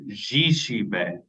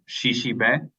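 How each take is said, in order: First: The word begins with a harder j sound. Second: The word begins with a soft sh sound. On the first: "that j being the harder sound for duck" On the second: "that sh being the softer sound"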